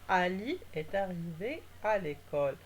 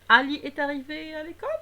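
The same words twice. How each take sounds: First: The pitch stays level and falls at the end. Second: The pitch rises at the end of the sentence. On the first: It gives a piece of information. "Le ton de ma voix est neutre" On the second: It asks a question. "C'est une question"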